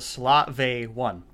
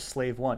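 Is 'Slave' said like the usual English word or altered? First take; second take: altered; usual. First: Slave is said with an altered, unusual pronunciation. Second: Slave is said like the ordinary English word. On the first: The speaker calls it right. "It's called the Slave One" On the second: The speaker calls it wrong. "The ship is not called the Slave One"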